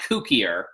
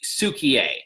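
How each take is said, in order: First: The name begins with a K sound. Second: The name begins with an S sound. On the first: The speaker calls it wrong. "It's not Kukier" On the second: The speaker calls it right. "it's Sukier"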